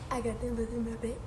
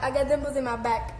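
First: Much softer and quicker; quiet aside. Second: Said in the usual way. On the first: Real, not acted. Repeating the line to herself, a quiet aside. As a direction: murmur it to yourself, fast.

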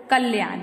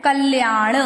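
First: "कल्याण" ending in a dental n; wrong final n. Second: "कल्याण" ending in a firm retroflex ṇ; correct retroflex n. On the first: Teacher reads the incorrect word, "कल्याण" with plain dental n. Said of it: "क्या है बच्चों अशुद्ध शब्द?". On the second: Teacher shows how we say it, "कल्याण" with retroflex ṇ. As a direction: say "कल्याण" as kalyaaṇ, tongue curled back. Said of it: "हम इसको क्या बोलते हैं?". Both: Shown as a demonstration.

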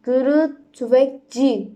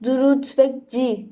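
First: "Duru Tüfekçi" slowly sounded out; careful name reading. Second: "Duru Tüfekçi" slowly sounded out, last syllable as "ci"; careful name reading. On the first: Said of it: "Tüfekçi diye oku". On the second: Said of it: "dilim dönmüyor". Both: Shown as a demonstration.

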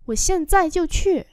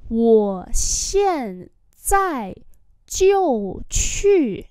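First: Said in the usual way. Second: Syllable by syllable; drawn-out falling tones; slow demonstration. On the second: Shown as a demonstration. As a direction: model it slowly for learners. Teacher repeats phrase slowly.

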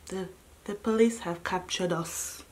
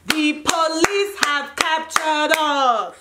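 First: Low, quiet, defeated-sounding reveal; hushed announcement. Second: Slow, drawn-out, higher announcement; dramatic proclamation. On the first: Telling listeners the police caught the group, hushed and low. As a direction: drop to a soft, grave undertone. First take of dramatic announcement. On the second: Announcing to listeners that police caught the group, slowly dramatic. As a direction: proclaim each word with mock grandeur. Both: Retold or imitated.

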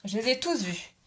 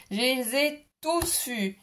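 First: Said in the usual way. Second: Slow, deliberate repeat stressing tous; slow emphasis. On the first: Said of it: "repeats the line". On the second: Shown as a demonstration. Repeating it slowly to viewers for emphasis. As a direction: drag out Je les ai tous vus, leaning on tous. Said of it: "repeats slowly for emphasis".

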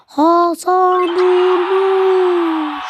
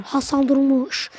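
First: Slow, stretched-out name call; long stretched football name call; drawn-out commentator call. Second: Said in the usual way. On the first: Acted. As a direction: draw the name out like a TV announcer.

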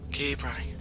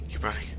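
First: Breathy hushed repeat; scared whisper. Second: Whispered urging to self; hushed, tense whisper; scared whisper. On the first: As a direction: whisper it again, tense. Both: Real, not acted.

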